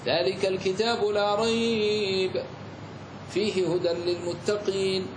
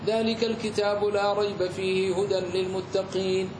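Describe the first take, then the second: First: There is a pause after rayb only. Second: There is no pause in the whole phrase. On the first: "جاز لك أن تقف على الأول" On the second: "ولم تقف على أي أحد منهما"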